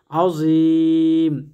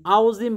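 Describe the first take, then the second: First: আযীম drawn out very slowly with a long held vowel; correct pronunciation. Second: আযীম said quickly with a short plain vowel, the wrong way; wrong pronunciation. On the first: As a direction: stretch আযীম long and full, as the right way. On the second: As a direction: say আযীম carelessly, as the mistake. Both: Shown as a demonstration. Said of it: "আযীম বললে ভুল হবে".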